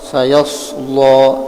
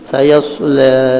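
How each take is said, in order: First: The L sound is thick and heavy. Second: The L is light; the vowel leans toward e. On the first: "membaca Warash sayasla, tebal lamnya" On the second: "bisa juga dibaca kada tebal tapi taklil"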